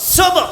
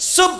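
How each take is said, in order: First: The final b is released with an echoing bounce. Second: The final b stops flat without a bounce. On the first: The speaker calls it right. "বলতে হবে সুব কলকলা" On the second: The speaker calls it wrong. "সুব এমন করলে পড়া অশুদ্ধ হবে"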